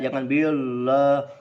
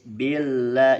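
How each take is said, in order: First: The first syllable is said thick and heavy. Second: The first syllable is said thin and light. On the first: The speaker calls it wrong. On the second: The speaker calls it right. "Bi tipis"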